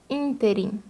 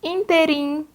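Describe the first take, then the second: First: Interim stressed on TE; correct stress. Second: Interim with a raised first syllable IN; wrong stress. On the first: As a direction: put the weight on te in interim. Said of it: "o correto é interim". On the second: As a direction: push IN in Interim. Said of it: "quando o correto é interim". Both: Shown as a demonstration.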